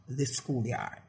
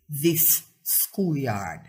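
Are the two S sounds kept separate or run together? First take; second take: run together; separate. First: The two S sounds are run together. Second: The two S sounds are kept separate. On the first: The speaker calls it wrong. "and not" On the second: The speaker calls it right. "2 consonant sounds which follow each other should be separated"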